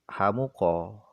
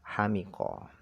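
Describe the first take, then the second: First: The vowel after the m is u. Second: The vowel after the m is i. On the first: "atau dibaca dhammah mimnya" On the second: "bikasril mim dengan dibaca kasrah mimnya"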